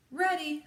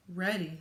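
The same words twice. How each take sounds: First: High, loud, keen answer; eager call. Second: Said in the usual way. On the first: A narrator's reading. Ada answers Rosie before the launch, eager and loud.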